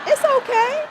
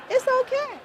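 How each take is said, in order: First: Much higher and louder, playful; mock reassurance. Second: Much higher, in a put-on squeaky voice; mock reassurance. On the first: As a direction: squeak it out teasingly. Teasing reassurance about old age. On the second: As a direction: pipe it again like a cartoon. Repeated teasing reassurance.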